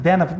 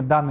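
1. Первый гласный звучит как 'e'. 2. Первый гласный звучит как 'a'. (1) "потому что Эй, это Е" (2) "а мы в России все время Дана его зовем"

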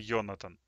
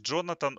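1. Имя начинается со звука Y. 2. Имя начинается со звука J. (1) "а в Германии это Йонатан" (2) "Джонатан, он в Америке"

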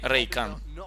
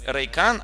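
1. Ударение на первом слоге. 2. Ударение на втором слоге. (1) "а не на Э" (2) "На второй слог ударение ставят. На А"

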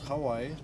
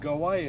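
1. Слово начинается со звука H. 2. Слово начинается с твёрдого звука G.

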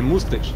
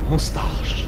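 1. Второй гласный — похожий на 'y' звук. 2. Второй гласный — открытый звук 'a'. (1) "Не мустыш" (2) "а мусташ"

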